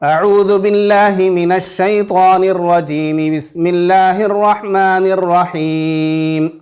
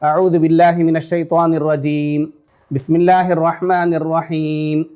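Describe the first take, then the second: First: The two phrases run together without a pause. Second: There is a pause between the two phrases. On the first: "तीनों को मिला करके पढ़ें" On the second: "अऊज़ु बिल्लाहि मिनश शैतानिर रजीम पढ़ करके रुक जाएं"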